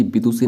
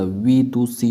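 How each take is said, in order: First: विदुषी with an opening b, "bidusi"; b in place of v in विदुषी; wrong form. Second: विदुषी slowly with a clear v; slow, careful v opening विदुषी; correct form. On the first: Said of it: "नहीं होता". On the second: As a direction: draw out विदुषी as "vee-du-si". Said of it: "विदुषी होता है". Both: Shown as a demonstration.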